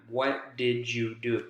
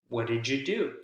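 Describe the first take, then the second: First: Each word is said separately and choppily. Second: The words run together like one long word. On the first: The speaker calls it wrong. "that doesn't really create a lot of rhythm" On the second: The speaker calls it right. "That sounds like one long word instead of four separate ones"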